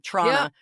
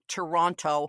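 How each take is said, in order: First: It is squeezed to two syllables without the T. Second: Every syllable and the middle T are pronounced. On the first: It sounds like a local saying it. The speaker calls it right. "it's T R A W N N A" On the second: It sounds like an outsider saying it. The speaker calls it wrong. "we don't say Toronto like Toronto"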